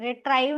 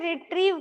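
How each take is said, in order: First: The second syllable has an 'eye' vowel. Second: The second syllable has an 'ee' vowel. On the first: The speaker calls it wrong. "रिट्राइव नहीं" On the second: The speaker calls it right. "रिट्रीव करना है"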